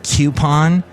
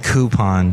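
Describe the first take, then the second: First: The word begins with a 'cue' sound. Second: The word begins with a 'coo' sound. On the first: The speaker calls it wrong. "a program director that yelled at me because I said coupon" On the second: The speaker calls it right. "because they make me coo"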